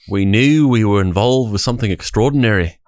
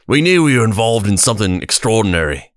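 First: It is said in a British-sounding accent. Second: It is said in an Australian accent.

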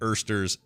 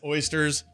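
First: The first vowel sounds like 'er'. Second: The first vowel sounds like 'oy'. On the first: The speaker calls it wrong. "not Ersters" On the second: The speaker calls it right. "it's oysters"

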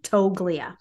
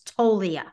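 First: The G sound is clearly pronounced. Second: The G sound is left out. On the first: The speaker calls it wrong. "not say the G" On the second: The speaker calls it right. "The G is silent"

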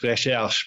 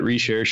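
First: The word is said with full French pronunciation. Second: The word is said with an anglicized pronunciation. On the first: "if you want to say it full French" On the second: "they probably just called it Recherche or something"

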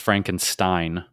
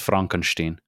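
First: The name has an American English pronunciation. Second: The name has a German pronunciation. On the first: "the American is Frankenstein" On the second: "I believe the German pronunciation is Frankenstein"

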